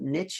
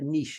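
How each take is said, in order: First: It is pronounced the American way. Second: It is pronounced the European way. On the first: "In the United States, they call it niche" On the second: "And in Europe, we call it a niche"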